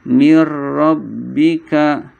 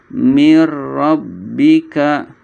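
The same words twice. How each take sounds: The two takes are said the same way.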